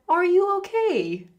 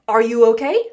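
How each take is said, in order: First: It is said with a British intonation. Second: It is said with an American intonation. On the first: "with a British intonation, it could sound like" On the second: "an American would say"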